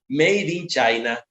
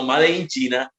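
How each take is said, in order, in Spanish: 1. Se pronuncia con sonidos ingleses. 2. Se pronuncia con sonidos españoles.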